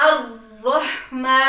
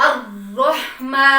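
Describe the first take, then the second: No difference in how they are said.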